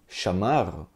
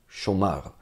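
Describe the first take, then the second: First: The first vowel is an open 'a' sound. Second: The first vowel is a rounded 'o' sound. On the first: This is the older southern pronunciation. "provavelmente as pessoas falavam chamar" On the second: This is the later Tiberian pronunciation. "e não chomar"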